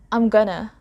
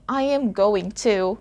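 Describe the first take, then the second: First: It is contracted and reduced to 'I'm gonna'. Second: 'I am going to' is said in full. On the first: "American English native speakers, say" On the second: "instead of saying"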